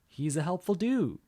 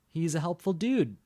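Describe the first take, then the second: First: The final word trails out openly. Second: The final word is cut off abruptly. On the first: "The second version, it just goes out" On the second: "The first version, it cuts off"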